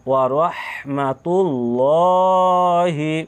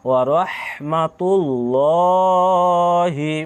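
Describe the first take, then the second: The two takes are said the same way.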